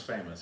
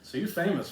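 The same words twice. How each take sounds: First: Famous dropped low and soft; soft low echo. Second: Said in the usual way. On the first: Real, not acted. Teasing friend echoes famous, low and soft. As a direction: repeat famous under the breath, much lower and softer.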